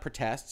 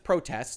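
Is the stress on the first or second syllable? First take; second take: second; first. First: The stress is on the second syllable. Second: The stress is on the first syllable. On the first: It is a verb meaning objects to. The speaker calls it wrong. "not protests" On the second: It is a noun meaning demonstrations. The speaker calls it right. "That's protests, ... It's not the verb"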